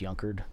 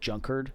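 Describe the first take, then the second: First: The name begins with a Y sound. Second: The name begins with a J sound. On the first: The speaker calls it right. "but it's pronounced Yunkard" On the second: The speaker calls it wrong. "it looks like Junkard"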